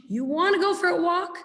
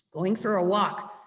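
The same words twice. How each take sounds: First: Higher, bright rising question to the dog; tempting the dog with a walk, excited; excited dog-owner question. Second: Said in the usual way. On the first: Shown as a demonstration. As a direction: ask it like the walk is a treat.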